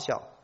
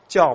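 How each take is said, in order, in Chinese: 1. 这个字以 x 音开头，读 xiào。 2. 这个字以 j 音开头，读 jiào。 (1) "你台湾来的人就说发孝" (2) "到来说发教吧，是不是读教？"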